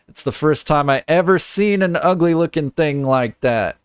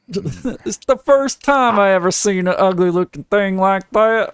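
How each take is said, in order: First: It is read in the speaker's ordinary voice. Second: It is read in a put-on character voice. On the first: The speaker calls it wrong. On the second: The speaker calls it right.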